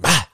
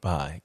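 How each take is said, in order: First: It is said abruptly and punchily. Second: It is said softly and gently.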